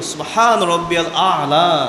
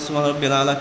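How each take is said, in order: First: The phrase is said slowly and fully. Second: The phrase is said fast and clipped. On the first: The meaning is properly conveyed. The speaker calls it right. "ধীরে সুস্থে" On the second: The prayer is not properly performed. The speaker calls it wrong. "ঠিকমতো আদায় করে না"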